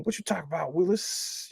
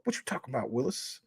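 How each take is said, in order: First: Hushed, rising Arnold catchphrase; half-whispered kid sitcom catchphrase; imitating Arnold. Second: A soft, hushed try at Arnold's line; imitating Arnold. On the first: Streamer softly mimics Arnold for chat. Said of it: "I wish I could sound just like him". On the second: Streamer quietly retries the Arnold catchphrase for chat. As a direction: quietly mimic the kid's catchphrase. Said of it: "I can't do it perfect".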